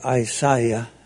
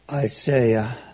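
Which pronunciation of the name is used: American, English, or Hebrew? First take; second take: English; American. First: The name is said in an English way. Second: The name is said in an American way.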